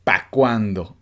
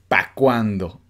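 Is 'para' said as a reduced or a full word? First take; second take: reduced; reduced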